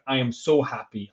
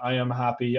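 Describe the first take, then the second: First: It is said with strong feeling. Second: It is said flatly, without feeling.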